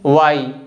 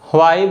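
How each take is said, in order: First: No h sound follows the w. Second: A light h sound follows the w. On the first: "correct pronunciation है वाई according to the dictionary" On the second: "व के बाद हल्का सा ह को बोलते हैं"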